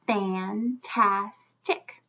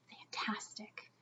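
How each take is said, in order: First: Fantastic stretched slowly, fan-tas-tic; slow syllable split. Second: Whispered word. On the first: Teacher slowly chunking the word for the class. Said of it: "let's feel it and count our syllables". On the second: Teacher whispering the word for the class. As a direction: whisper the word fantastic softly. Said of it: "Let's all say the word fantastic". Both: Shown as a demonstration.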